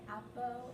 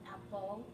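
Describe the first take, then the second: First: The final L is replaced by a vowel. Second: The final L is pronounced clearly. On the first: The speaker calls it wrong. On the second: The speaker calls it right.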